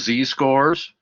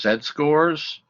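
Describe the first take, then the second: First: The letter Z is said as zee. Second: The letter Z is said as zed. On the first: "You can pronounce this as" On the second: "followed the British way of pronouncing the, the letters"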